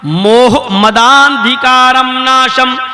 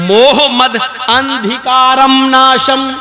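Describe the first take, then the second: First: The 'da' runs into a long 'aa' without break. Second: 'Mad' and 'andhikaram' are said as separate words. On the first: The speaker calls it right. "मोहम्मद के दा को आ से मिलाया जाएगा और खींचा जाएगा" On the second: The speaker calls it wrong. "अलग अलग करके पढ़ेंगे तो यूं पढ़ा जाएगा"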